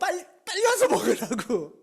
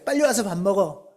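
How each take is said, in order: First: It is said in an angrier voice. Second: It is said in a calmer voice.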